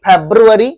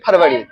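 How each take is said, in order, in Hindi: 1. इसे 'febru-ary' कहा जाता है, अंग्रेज़ी शैली में। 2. इसे 'farvari' कहा जाता है, हिंदी शैली में। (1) "लेकिन इंग्लिश में कहते हैं फेब्रुअरी" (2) "आप लोग कहते हो फरवरी"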